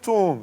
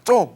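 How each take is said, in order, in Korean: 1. 의아해하며 묻는 말투로 말해요. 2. 짜증 나고 못마땅한 말투로 말해요. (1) "못 알아들으면" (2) "기분 나쁘면은"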